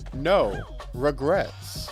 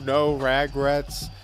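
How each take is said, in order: First: There is a pause after 'no'. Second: It is said smoothly without a pause.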